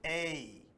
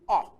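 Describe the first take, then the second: First: The vowel sound is long. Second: The vowel sound is short. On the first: "the long sound" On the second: "The short sound"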